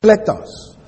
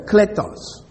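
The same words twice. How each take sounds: First: "Kletos" said slowly as KLAY-tos, first syllable high; Greek word spoken. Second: "kletos" said slowly after spelling it out, stressed on KLE; spelled word repeated. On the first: Teacher models the Greek word for the class, clearly pronounced. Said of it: "the Greek word kletos". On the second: Teacher repeats the spelled Greek word, carefully. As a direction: pronounce "kletos" clearly with a falling end. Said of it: "K L E T O S". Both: Shown as a demonstration.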